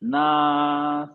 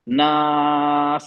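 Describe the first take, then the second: First: The final s sound is very faint. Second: The final s sound is loud and clear. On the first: The speaker calls it wrong. "बिल्कुल धीमी थी ना, कुछ समझ में नहीं आ रहा था।" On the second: The speaker calls it right. "अब अब क्लियर है"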